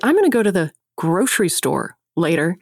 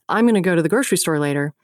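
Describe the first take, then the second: First: Short pauses set off grocery store. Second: It flows without pauses around grocery store.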